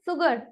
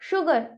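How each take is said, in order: First: The word begins with an s sound. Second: The word begins with an sh sound. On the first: The speaker calls it wrong. "That is the wrong pronunciation for that" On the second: The speaker calls it right. "शुगर, not सुगर"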